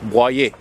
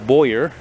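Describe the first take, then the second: First: The name is pronounced the French way. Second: The name is pronounced the English way. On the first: The speaker calls it right. "It's Boyer" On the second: The speaker calls it wrong. "not Boyer. That's incorrect"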